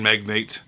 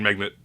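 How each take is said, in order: First: The last syllable is a full 'nate' sound. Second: The last syllable is a reduced 'net' sound. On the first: "They say food chain magnate" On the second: "instead of enunciating, to say food chain magnet"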